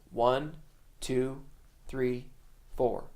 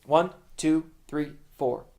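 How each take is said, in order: First: Slow count, a gap after each number; measured, unhurried drummer's count; slow tempo count-in. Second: Brisk, evenly spaced count; fast tempo count-in. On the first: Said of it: "If the tempo's slow". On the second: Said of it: "If the tempo's fast". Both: Shown as a demonstration.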